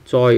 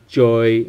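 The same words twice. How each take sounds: First: "joy" begun like tsoy, lips not pushed out; ts onset. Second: "joy" with an English j, lips protruded; the mistaken English-sounding "joy". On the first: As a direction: start "joy" with ts instead of j. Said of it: "more like T S than J". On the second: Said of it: "it's not joy". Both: Shown as a demonstration.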